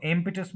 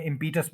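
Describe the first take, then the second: First: impetus as IM-pi-tus; impetus with a short, unstressed pi; stress on first syllable. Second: Said in the usual way. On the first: Shown as a demonstration. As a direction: put the weight on IM in impetus. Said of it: "जब वो impetus बोलते हैं". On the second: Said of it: "हमारे mind में impetus बैठा हुआ है".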